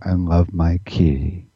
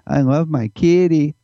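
First: The voice sits at its relaxed natural pitch. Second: The voice moves away from its relaxed natural pitch. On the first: The speaker calls it right. "That's my home note" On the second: The speaker calls it wrong. "I wouldn't say"

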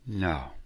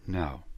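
The two takes are said the same way.

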